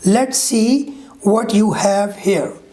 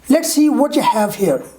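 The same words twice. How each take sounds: First: Every word is said fully and separately. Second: The words are reduced and run together. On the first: "This is a full form or unreduced form" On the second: "Now let me read the reduction form"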